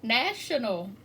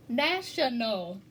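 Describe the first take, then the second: First: Said in the usual way. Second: "national" slowly split into three separate beats; syllable by syllable. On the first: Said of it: "when we look at the word". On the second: Shown as a demonstration. Teacher showing three syllables to students, "national" broken up slowly. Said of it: "three syllables".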